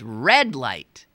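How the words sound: The stress falls on the first word. This is how people in the local area say it. "around here it's red light"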